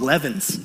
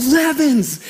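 First: Said in the usual way. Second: Higher-pitched, mildly raised coach's call; mock coach's yell. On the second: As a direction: imitate a coach yelling a player's surname. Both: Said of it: "And he yells".

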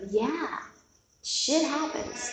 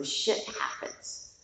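First: Higher, slow and drawn out, a wry mock-wise pronouncement; "shit happens" raised and slowed, as if quoting the Buddha; mock Buddha quote. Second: "Shit happens" whispered softly under the breath; a hushed, conspiratorial aside of the same quote; whispered repeat. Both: Shown as a demonstration. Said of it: "That's my quote of the Buddha".

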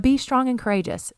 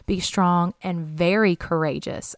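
First: "be" lifted high at the start, falling after; stress on be. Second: "very" leaned on and held, falling tune; stress on very. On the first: Preacher contrasting verses, stressing "be". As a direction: open strong on "be". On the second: Preacher to congregation, "very" stressed. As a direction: give the word "very" the weight. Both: Shown as a demonstration.

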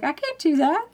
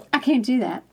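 First: Higher-pitched protest, lifting at the end; retold refusal with a questioning lift; balking. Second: Retold refusal, falling at the close; settled refusal. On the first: Customer answering the voice in her head, balking. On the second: Customer repeating her answer to the voice, settled refusal. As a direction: restate the protest with a falling end.

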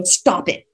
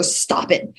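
First: Said in the usual way. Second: Whispered stop it. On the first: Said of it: "I go". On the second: Retold or imitated. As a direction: hush it under your breath. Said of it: "I literally go".

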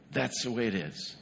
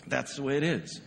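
First: "That's" hit first, the rest falling away; stress on that's. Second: "is" landed firmly at the end of "That's the way it is"; stress on is. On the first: Pastor stating a hard truth to parents, "That's" stressed. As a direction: lean on "That's" in "That's the way it is". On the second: Pastor repeating the hard truth, "is" stressed. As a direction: finish on "is" with weight. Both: Shown as a demonstration.

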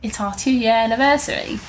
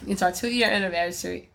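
First: Higher, badly faked British accent; terrible British accent. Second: Said in the usual way. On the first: Shown as a demonstration. Host mocking own slip about the anniversary, bad British accent. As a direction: put on a poor British accent. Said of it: "Mm-hmm, that was terrible". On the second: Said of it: "that was terrible".

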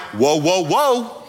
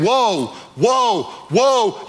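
First: Whoa, whoa, whoa as a relaxed, mildly excited cheer; calm cheer. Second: Whoa, whoa, whoa as a lightly voiced alarmed eagle cry. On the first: Retold or imitated. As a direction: answer the alarm with easy excitement. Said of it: "You're like". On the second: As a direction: sound the eagle's alarmed warning. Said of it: "afraid of the eagle saying".

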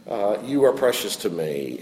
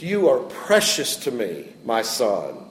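First: Softer tender. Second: Tender. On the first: God's affirmation repeated more softly. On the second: God's affirmation retold to Daniel. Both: Retold or imitated.

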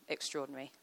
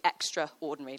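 First: Said in the usual way. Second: Extraordinary said as "extra", then "ordinary"; "extraordinary" broken in two to show its parts; split into two words. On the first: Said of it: "Literally extraordinary". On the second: Shown as a demonstration. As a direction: pull extraordinary apart, stressing the "extra". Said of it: "like, more than ordinary".

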